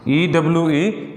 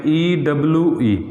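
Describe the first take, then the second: First: Letters spelled out slowly, one by one; slow spelling. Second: Said in the usual way. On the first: Shown as a demonstration. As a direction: spell "ई W ई" slowly, each letter apart. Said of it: "इसको बोलते हैं यू". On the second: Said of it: "इसको बोलते हैं अपने यू".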